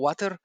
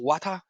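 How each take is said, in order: First: It is said with an American pronunciation. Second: It is said with a British pronunciation. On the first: "no tomo water" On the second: "yo tomo water"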